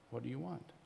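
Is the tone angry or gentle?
gentle. It is said simply, without any anger.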